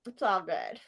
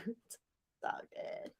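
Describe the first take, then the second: First: Said in the usual way. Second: Unvoiced, breathy whisper. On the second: Real, not acted. Whispering an aside to herself after venting to her friend. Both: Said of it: "repeats it whispered".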